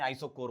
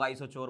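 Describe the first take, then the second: First: आइसोकोर said with a hard "k" in कोर; correct K sound. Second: आइसोचोर said with a "ch" sound in चोर; mispronounced CH. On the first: Teacher correcting students on the term, आइसोकोर with a hard "k". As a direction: say आइसोकोर with "k", not "ch". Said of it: "आइसोचोर नहीं, आइसोकोर होता है". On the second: Teacher quoting a common mistake, आइसोचोर mispronounced with "ch". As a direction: say आइसोचोर with "ch" instead of "k". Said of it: "कई लोग आइसोचोर बोलते हैं". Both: Shown as a demonstration.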